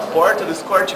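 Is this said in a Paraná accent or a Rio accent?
Paraná. It is said in a Paraná accent. "lá no Paraná a gente fala"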